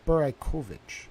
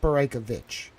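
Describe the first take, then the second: First: "Beraikovich" as bur-eye-KOH-vich; "Beraikovich" with a full round "koh", softer; corrected pronunciation. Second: "Beraikovich" as bur-EYE-kuh-vich; "Beraikovich" with a weak "kuh" in the middle; rejected pronunciation. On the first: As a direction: say "Beraikovich" with a clear long O before "vich". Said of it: "It's Beraikovich". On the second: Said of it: "'Cause it's not". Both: Shown as a demonstration.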